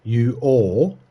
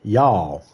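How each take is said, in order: First: You all said as two full separate words, ju ol. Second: Y'all blended into one syllable, yawl; y'all, one word. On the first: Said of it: "We say". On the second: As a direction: run y'all together into a single syllable. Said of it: "It's combined into one word". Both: Shown as a demonstration.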